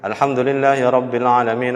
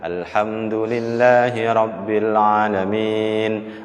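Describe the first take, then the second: First: It is recited quickly. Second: It is recited at a medium pace. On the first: "Hadar itu cepat" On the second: "Itu sedang. Tartil lah"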